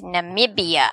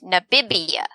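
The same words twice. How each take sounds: First: The second syllable starts with an m sound. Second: The second syllable starts with a b sound. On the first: The speaker calls it right. "it's N A M I B I A" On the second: The speaker calls it wrong. "Like N A B I B I A or something"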